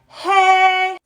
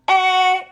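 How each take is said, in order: First: The vowel starts with a breathy, sighing release. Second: The vowel starts with a firm, pressed closure. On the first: "like releasing steam off the pressure cooker" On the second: "instead of eh"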